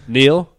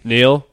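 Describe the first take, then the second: First: Incredulous mock repeat, again; mocking question. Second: Incredulous mock repeat; mocking question. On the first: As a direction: scoff at it once more. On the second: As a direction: scoff at the command. Mocking Zod's command as a question.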